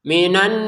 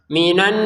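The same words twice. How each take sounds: The two takes are said the same way.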